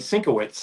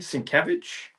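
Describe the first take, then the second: First: The name ends with a 'witz' sound. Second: The name ends with a 'vich' sound. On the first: The speaker calls it wrong. "He was also pronouncing it wrong. He was saying Sinkowitz" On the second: The speaker calls it right. "you mean Sienkiewicz?"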